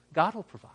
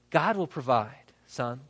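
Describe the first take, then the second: First: Hushed whisper, almost no voice. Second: Said in the usual way. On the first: Acted. Abraham quietly assuring Isaac, whispered. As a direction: breathe it to the boy. Abraham answers his son.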